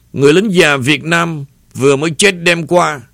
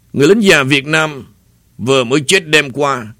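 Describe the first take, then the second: The two takes are said the same way.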